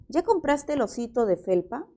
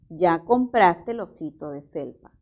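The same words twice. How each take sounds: First: The voice rises at the end. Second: The voice falls at the end. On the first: It is asked as a question. "aquí tenemos la entonación ascendente" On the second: It is stated as a fact. "podría pasar a ser una afirmación"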